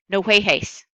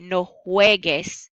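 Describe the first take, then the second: First: The last syllable starts with a breathy h sound. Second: The last syllable starts with a hard g sound. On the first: The speaker calls it wrong. "It would say" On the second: The speaker calls it right. "it wouldn't keep that g g sound. It wouldn't say"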